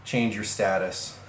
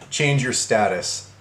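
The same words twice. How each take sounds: First: Said in the usual way. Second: Slow, drawn-out mock command; mocking emphasis. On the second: Rereading the ex's message for viewers, slowly mocking. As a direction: relish each word of the quoted order. Repeats the part he likes.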